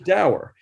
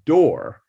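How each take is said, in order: First: The vowel does not rhyme with 'pour'. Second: The vowel rhymes with 'pour'. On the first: This is how most people say it. "the way that word is pronounced by the vast dour people" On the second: This is the dictionary pronunciation. "the quote unquote correct pronunciation is door, just like the it's similar to P-O-U-R is pronounced poor"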